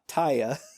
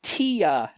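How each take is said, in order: First: The first syllable sounds like 'tie'. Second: The first syllable sounds like 'tee'. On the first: The speaker calls it wrong. "not Taya" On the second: The speaker calls it right. "It's Tia"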